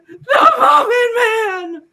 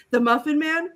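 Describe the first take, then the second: First: MUFFIN MAN wailed high, loud and slow; hammed-up cartoon yell on "The Muffin Man!"; emphatic shout. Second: MUFFIN MAN as a higher, restrained question; amused, lightly acted query on "The Muffin Man?". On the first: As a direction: shriek "The Muffin Man!" with long held vowels. Captive insists on the name. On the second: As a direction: ask "The Muffin Man?" with mock disbelief. Villain repeats the name.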